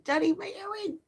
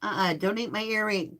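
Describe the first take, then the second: First: Much higher playful no; squeaky scolding. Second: Said in the usual way. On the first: Real, not acted. Puppy chewing her earring.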